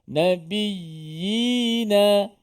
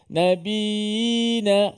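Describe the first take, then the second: First: The doubled y sound is pressed and clear. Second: The doubled y sound is swallowed and unclear. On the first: The speaker calls it right. "Ha, begitu" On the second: The speaker calls it wrong. "tu tak jelas ya yang berbaris di bawah"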